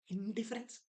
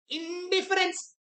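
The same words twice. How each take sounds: First: Said in the usual way. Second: Announced option. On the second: Shown as a demonstration. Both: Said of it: "What does indifference means".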